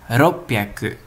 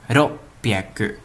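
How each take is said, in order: The two takes are said the same way.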